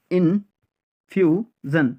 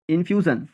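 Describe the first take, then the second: First: infusion slowly as in-fiu-zon; syllable by syllable. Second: Said in the usual way. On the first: Shown as a demonstration. Teacher drilling learners, infusion in slow separate syllables. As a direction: pause between the pieces of infusion.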